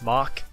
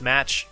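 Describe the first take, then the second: First: The word ends with a k sound. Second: The word ends with a tch sound. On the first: The speaker calls it right. "it's pronounced Mach" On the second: The speaker calls it wrong. "It's not pronounced match"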